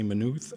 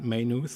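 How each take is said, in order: First: It is said the way Irish speakers say it. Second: It is said the way American or British speakers say it. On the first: "They say Maynooth" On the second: "as some probably Americans or British would do"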